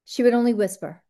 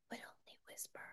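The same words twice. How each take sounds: First: Said in the usual way. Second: Barely audible unvoiced whisper. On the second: Shown as a demonstration. Imitating the Seinfeld date who talks too low, whispering. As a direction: whisper it so it nearly vanishes.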